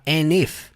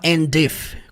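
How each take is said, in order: First: The D at the end of 'and' is dropped. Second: The D at the end of 'and' is pronounced. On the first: The speaker calls it right. "ele fala and if" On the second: The speaker calls it wrong. "ele não fala and if, com o som de D"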